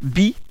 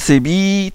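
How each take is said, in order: First: The vowel is short. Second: The vowel is long.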